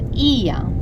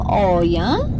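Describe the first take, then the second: First: It begins with an 'ee' sound. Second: It begins with an 'oh' sound. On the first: The speaker calls it right. "we will just pronounce it as Ia" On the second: The speaker calls it wrong. "even though we will read the name Oya"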